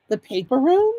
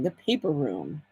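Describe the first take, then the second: First: The paper room? asked with a rising tune on room; questioning rise. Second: The paper room, said softly and lower to herself; quiet savoring. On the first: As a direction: try the name out as a question. Trying out a store name. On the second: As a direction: murmur the name as if tasting it. Savoring the store name. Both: Acted.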